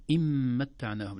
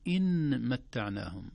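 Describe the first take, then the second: First: إن متعناهم with the nun hidden into a nasal glide; إن متعناهم read with hidden nun; correct recitation. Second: إن متعناهم with the nun said fully and clearly; slow, pronounced nun in إن متعناهم; wrong recitation. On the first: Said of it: "فنقول". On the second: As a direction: demonstrate the error: a plain clear nun in إن متعناهم. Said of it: "لا نقول". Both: Shown as a demonstration.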